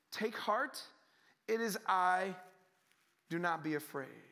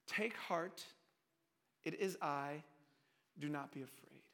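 First: Said in the usual way. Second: Low, hushed, spaced-out phrases; soft reassurance. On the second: Acted. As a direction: soothe them quietly, pausing between phrases. Repeats Jesus' words softly, reassuringly.

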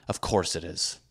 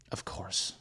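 First: Said in the usual way. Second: Breathy whispered Of course, much softer; whispered aside. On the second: Real, not acted. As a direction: mutter it under your breath. Sarcastic agreement then whispered repeat.

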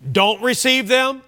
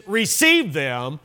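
First: "Don't receive them" held high; contrasting prohibition. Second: "Receive them" slow and measured; contrasting instruction. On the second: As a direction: draw out "Receive" slowly as the opposite case. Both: Retold or imitated. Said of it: "Do you feel a contrast".

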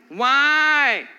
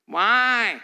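First: Put-on whiny child. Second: Put-on whiny child's drawn-out why. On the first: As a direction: whine it even more. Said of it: "Doesn't that sound whiny?". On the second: Kid whining at a parent for reasons. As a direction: whine like a toddler. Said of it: "the whiny baby why".

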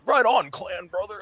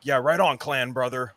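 First: Slow, high surfer dude drawl. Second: Laid-back surfer bro drawl. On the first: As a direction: stretch it out like a surfer bro. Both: Retold or imitated.

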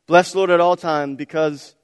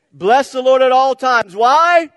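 First: Said in the usual way. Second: Yelled high and loud, really meaning it; preacher leading a loud chant; shouted call. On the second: Real, not acted. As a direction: shout it back to the church. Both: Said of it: "You guys gotta say it like you mean it".

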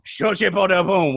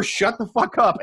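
First: Made-up French, said slowly; slow pseudo-French gibberish with a French accent; mock French. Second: Said in the usual way. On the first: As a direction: toss out a fake French phrase. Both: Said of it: "which is French for".

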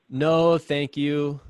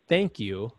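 First: Slow, overly polite refusal; super polite. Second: Said in the usual way. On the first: Retold or imitated. Exhausted runner politely refusing mom's meat sticks, extra polite. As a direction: decline as sweetly as you can. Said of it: "trying to be super extra polite". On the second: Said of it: "she thought I said".

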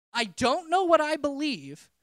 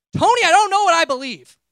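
First: Loud, slowed-down shout; retold yell. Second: Loud, exasperated shout at a friend; frustrated yell. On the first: Retelling yelling at Tony, loud and slow. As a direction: shout it slowly, reliving the moment. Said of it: "My response to was yelling". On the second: Retold or imitated. Busy and fed up, yelling at Tony who keeps asking about God. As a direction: blurt it out at full volume, at the end of your rope. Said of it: "and I yelled".

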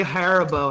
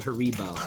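First: Haribo said HAIR-uh-bo; own pronunciation. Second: Haribo said huh-REE-bo; disputed pronunciation. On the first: Shown as a demonstration. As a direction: stress the first syllable of Haribo, HAIR. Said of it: "I say Haribo". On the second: Retold or imitated. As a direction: stress the middle syllable of Haribo, REE. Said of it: "an idiot for saying Haribo".

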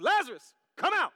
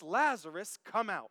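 First: High, forceful calling out; Jesus, loud voice. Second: Said in the usual way. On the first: Acted. Preacher acts out Jesus calling Lazarus, loud shout. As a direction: shout the summons. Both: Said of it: "Jesus called in a loud voice".

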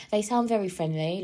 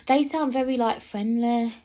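First: Said in the usual way. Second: High-pitched, badly faked Birmingham accent; attempted Birmingham accent. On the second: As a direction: have a failed go at a Birmingham accent. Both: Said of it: "I can't do a Birmingham accent".

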